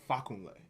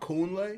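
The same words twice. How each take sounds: First: The stress falls on the first syllable. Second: The stress falls on a later syllable. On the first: The speaker calls it right. "but it's actually fakunle ... the emphasis is on the ah" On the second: The speaker calls it wrong. "So I used to say ... the emphasis would be here"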